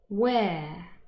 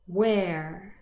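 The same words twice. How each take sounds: First: The R after the vowel is silent. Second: The R after the vowel is pronounced. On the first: "the non-rhotic pronunciation" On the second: "the rhotic pronunciation"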